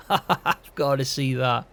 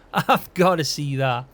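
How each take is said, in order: First: Said through a chuckle, slowed; amused, can't wait to watch; laughing. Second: Said in the usual way. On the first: Real, not acted. Laughing at George's shouting.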